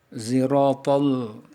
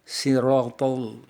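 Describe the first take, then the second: First: It begins with a light z sound. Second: It begins with a plain, light s sound. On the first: "dengan huruf zai yang tipis" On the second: "dengan huruf sin"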